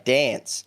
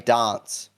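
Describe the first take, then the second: First: It is said in a broader Australian accent. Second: It is said in a more British-like accent. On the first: This is how Queenslanders say it. "in Queensland they have more of a, I guess, deeper Australian accent" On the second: This is how South Australians say it. "I'm from South Australia, and we speak more like the British"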